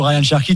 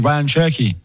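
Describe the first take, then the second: First: The name is said in a plain French way. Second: The name is said with a put-on foreign accent.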